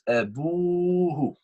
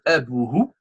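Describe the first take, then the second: First: The vowel after the b is long. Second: The vowel after the b is short. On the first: The speaker calls it right. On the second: The speaker calls it wrong. "It's not"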